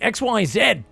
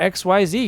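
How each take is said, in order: First: The last letter is said the Australian way. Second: The last letter is said the American way. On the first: The speaker calls it right. "I've got to reclaim my Australianness" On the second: The speaker calls it wrong. "when I'm casting, I speak in American"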